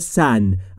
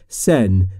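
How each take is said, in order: First: The vowel is more open, toward a. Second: The vowel is closer, toward e. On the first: "در ترکی آذری گفته میشه سن" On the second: "یه مقدار به سمت کسره میره، میشه سن"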